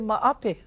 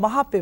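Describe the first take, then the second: First: The 'h' is dropped, giving 'maape'. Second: The middle syllable is said as 'ha'. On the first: "some people say maape" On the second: "it's just another pronunciation of mahope"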